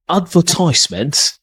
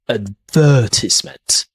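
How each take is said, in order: First: The stress is on the first syllable. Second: The stress is on the second syllable. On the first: "that's an American pronunciation. The stress here is in the first syllable" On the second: "In British English, the second syllable is a stress"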